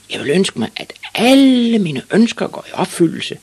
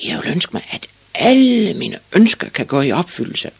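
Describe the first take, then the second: First: Very high, loud triumphant cry; proud shouted wish. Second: Put-on high, loud boyish shout; shouted wish. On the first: Ivan proudly repeats his wish to the witch, shouting. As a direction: proclaim it, holding "alle" long and loud. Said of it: "og så meget stolt ud". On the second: Ivan announces his wish to the sleepy witch, shouting. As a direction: call it out, swelling on "alle". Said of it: "råbte Ivan Olsen". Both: A narrator's reading.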